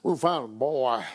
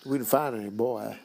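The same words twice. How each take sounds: First: Lower, flat deadpan line; imitating the sheriff. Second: Imitating the sheriff. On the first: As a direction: say it dry like the sheriff. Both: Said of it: "He doesn't say it like that at all".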